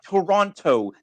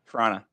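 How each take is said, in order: First: Every syllable is pronounced clearly and fully. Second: The sounds are softened and run together. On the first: This is how outsiders say the name. The speaker calls it wrong. "That is not how we say our city's name" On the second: This is how locals say the name. The speaker calls it right. "we soften everything and it just becomes a mess"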